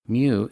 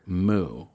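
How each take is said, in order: First: The word is said as 'myoo', rhyming with few. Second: The word is said as a plain 'moo'. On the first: The speaker calls it right. "the M sound followed by the word u, so it rhymes with few" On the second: The speaker calls it wrong. "Occasionally you'll hear moo, which sounds silly to me"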